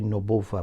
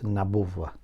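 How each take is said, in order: First: The first vowel sounds like 'u'. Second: The first vowel sounds like 'a'. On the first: The speaker calls it wrong. "Some people say Nubuwa" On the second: The speaker calls it right. "the correct pronunciation is Nabuwa"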